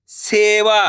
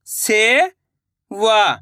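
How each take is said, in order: First: Said in the usual way. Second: सेवा drawn out slowly, syllable by syllable; slow syllable split. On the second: Shown as a demonstration. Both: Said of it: "मैं किस तरीके से".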